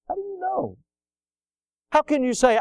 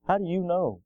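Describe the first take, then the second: First: Challenging question. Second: Said in the usual way. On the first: Acted. Preacher pressing the congregation with a soaring, hushed repeat. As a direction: lift the question way up, almost breathless.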